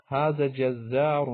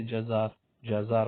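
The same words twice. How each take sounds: First: جزار slowly with held double z; standard Arabic pronunciation. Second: جزار as light "jazaar", single z; short, unweighted "ja-zaar" for جزار; colloquial Arabic pronunciation. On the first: Teacher presenting the word for butcher, جزار slow and full. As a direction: stretch جزار out, "jaz-zaar". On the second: Teacher quoting everyday Arabic speakers, جزار as light "jazaar". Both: Shown as a demonstration. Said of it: "عام عربی میں بولتے".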